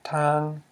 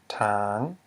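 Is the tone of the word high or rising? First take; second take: high; rising. First: The word is said with a high tone. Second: The word is said with a rising tone. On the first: It means road. "So in the word road, we have tang ... With a high tone?" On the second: It means to clear land. "to clear land, we have tang ... which equals a rising tone"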